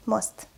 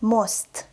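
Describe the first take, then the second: First: Quick, lighter "Most"; fast reading. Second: Slow, fully articulated "Most"; slow reading. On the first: Teacher reads as a native speaker, "Most" said fast. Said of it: "I will read this word fast". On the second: Teacher models the word for beginners, "Most" read slowly. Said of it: "I will read this word slowly". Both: Shown as a demonstration.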